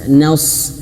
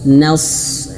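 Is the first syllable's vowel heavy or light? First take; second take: light; light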